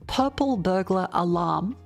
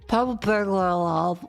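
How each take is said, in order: First: It is said slowly and clearly enunciated. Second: It is said fast and slurred.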